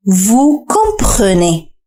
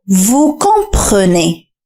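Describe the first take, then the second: First: "Vous comprenez" again, very slow and even; slow repeat. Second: "Vous comprenez" drawn out very slowly; slow model phrase. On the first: Teacher repeats the model for learners, very slowly. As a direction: let "Vous comprenez" unfold syllable by syllable. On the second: Teacher asks learners to listen closely, very slow demo. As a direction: stretch every syllable of "Vous comprenez". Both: Shown as a demonstration. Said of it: "استمع جيدًا".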